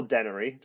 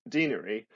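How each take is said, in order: First: "denary" said DEN-uh-ree; short-E denary. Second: "denary" said DEE-nuh-ree; long-E denary. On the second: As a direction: say "denary" with a long ee in the first syllable. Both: Shown as a demonstration. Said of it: "depending on how you pronounce it".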